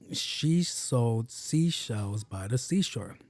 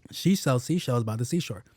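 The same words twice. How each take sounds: First: Slow, drawn-out careful recital; slow tongue twister. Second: Said in the usual way. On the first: Shown as a demonstration. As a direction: take the twister slowly, stretching each word. Easy tongue twister, first careful take.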